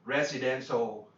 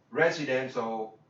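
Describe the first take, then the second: No difference in how they are said.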